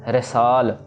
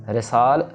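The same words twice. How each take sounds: The two takes are said the same way.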